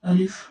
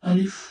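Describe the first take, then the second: Both takes have the same delivery.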